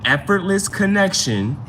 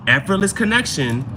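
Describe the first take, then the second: No difference in how they are said.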